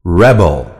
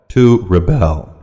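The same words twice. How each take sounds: First: Rebel stressed on the first syllable, REB-el. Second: Rebel stressed on the second syllable, re-BEL. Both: Shown as a demonstration. Noun and verb stress drill.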